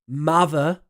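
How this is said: It is said in a Southeast English accent. "The Southeast"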